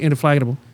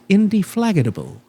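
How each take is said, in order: First: The consonants are slurred and run together. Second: Every consonant is pronounced clearly and distinctly. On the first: The speaker calls it wrong. "You don't say" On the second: The speaker calls it right. "with all of its uh, consonants and uh, all they all they are all very clearly"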